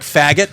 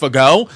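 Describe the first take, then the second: First: The name sounds exactly like the English slur. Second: The name sounds like 'fago', unlike the slur. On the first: This is how the spelling looks. The speaker calls it wrong. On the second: This is how the family says it. The speaker calls it right.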